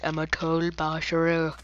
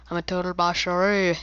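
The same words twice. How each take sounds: First: Said in the usual way. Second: Put-on boast voice. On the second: Shown as a demonstration. Repeats boast in new voice.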